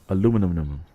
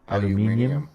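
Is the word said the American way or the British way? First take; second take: American; British. First: It is said in an American way. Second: It is said in a British way. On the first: "Americans say aluminum" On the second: "How do you Brits say it?"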